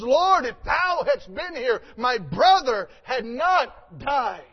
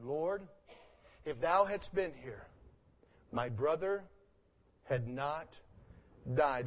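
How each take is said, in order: First: Loud pleading cry of Mary, slowed at the end; Mary's cry, louder. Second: Quiet, halting, each phrase set apart; soft slow reread. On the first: Retold or imitated. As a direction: call out Lord in grief, then slow down. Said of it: "she says". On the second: Shown as a demonstration. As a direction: let the words fall gently, pause between phrases. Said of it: "Look at it again".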